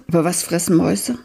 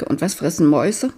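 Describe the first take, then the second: First: Quick worried thought, weight on fressen; stress on fressen. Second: Quick worried thought, weight on Mäuse; stress on Mäuse. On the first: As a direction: ask again, now leaning on fressen. Hungry boy asks himself again. (schnelle Frage, Betonung auf fressen) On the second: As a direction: ask fast, leaning on Mäuse. Hungry boy asks himself. (schnelle Frage, Betonung auf Mäuse) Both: Acted.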